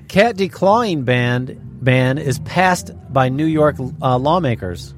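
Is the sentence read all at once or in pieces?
in pieces. The sentence is read in separate pieces.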